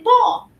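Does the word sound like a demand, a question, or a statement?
statement. It sounds like a pointing statement. The child points out that the ball is there. "There is There's the ball"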